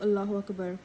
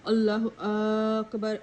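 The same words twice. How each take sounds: First: The first vowel of Akbar is kept short. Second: The first vowel of Akbar is drawn out long. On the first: The speaker calls it right. "instead of" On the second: The speaker calls it wrong. "pull the alif on the word Akbar by saying"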